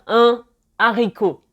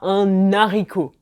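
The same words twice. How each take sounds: First: The n is not linked to the next word. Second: The n is linked into the next word. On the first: The speaker calls it right. "on va dire un haricot" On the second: The speaker calls it wrong. "et pas un haricot"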